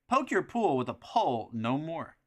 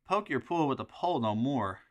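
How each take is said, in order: First: It is said in a put-on announcer voice. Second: It is said in a normal speaking voice.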